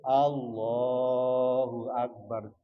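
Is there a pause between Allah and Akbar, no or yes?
no. The two words run together without a break. The speaker calls it right. "Harus urut"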